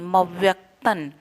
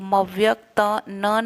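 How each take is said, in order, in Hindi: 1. अंतिम अक्षर बिना विराम के जुड़ा रहता है। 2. अंतिम अक्षर विराम के साथ अलग किया जाता है। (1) "उसका हम उच्चारण न करके करेंगे" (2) "नहीं"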